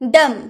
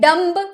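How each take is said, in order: First: The final b sound is silent. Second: The final b sound is pronounced. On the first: The speaker calls it right. "बी चुप रहते हैं तो हम क्या बोलते हैं" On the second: The speaker calls it wrong. "अगर हम नहीं जानेंगे तो हम बोलेंगे"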